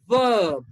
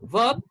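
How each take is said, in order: First: The vowel is stretched out long. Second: The vowel is short and clipped. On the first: The speaker calls it right. "This one is a bit longer. ... So we will pronounce it as this one" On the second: The speaker calls it wrong. "If you say verb, then it's wrong"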